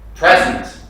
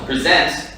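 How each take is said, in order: First: The stress is on the first syllable. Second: The stress is on the second syllable. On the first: It is a noun, a gift. "this is the noun" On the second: It is a verb, to give or show. "when you stress the second syllable, it makes the word a verb"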